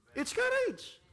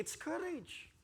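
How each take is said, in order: First: Courage flung out high and loud; courage shouted high. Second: Quiet, falling courage; courage dropped soft. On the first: Preacher crying out courage to the congregation, high and loud. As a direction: repeat courage as a rallying cry. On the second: Preacher first saying courage quietly to the church. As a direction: let courage fall softly. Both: Shown as a demonstration.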